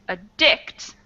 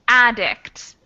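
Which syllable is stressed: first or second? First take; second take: second; first. First: The stress is on the second syllable. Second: The stress is on the first syllable. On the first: It is the verb, to make dependent on. "stress on the D I C" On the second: It is the noun, a person who acts compulsively. "stress on the A D"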